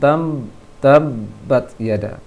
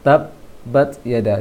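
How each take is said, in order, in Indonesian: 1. Konsonan ganda itu terdengar seperti m sengau. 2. Konsonan ganda itu b biasa. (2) "usahakan suaranya hanya dua bibir saja"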